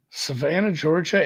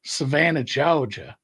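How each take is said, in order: First: Attempted Southern accent; lightly Southern-accented place name. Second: Southern drawl, dropping the R in Georgia; old-film coastal Southern accent. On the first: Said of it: "in a Southern accent. My Southern accent". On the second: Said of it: "it's more of a drawl". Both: Shown as a demonstration.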